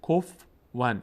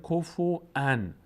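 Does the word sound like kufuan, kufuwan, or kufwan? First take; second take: kufwan; kufuan. First: The f has no vowel after it. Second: A glottal stop replaces the w sound. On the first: "ف رو ساکن میخوانند" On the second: "واو رو الهمزه میخوانند"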